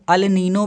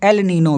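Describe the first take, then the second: First: The first word begins with an 'ah' vowel. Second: The first word begins with an 'eh' vowel. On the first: "अल Nino भी बोला जाता है" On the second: "एल Nino भी बोला जाता है"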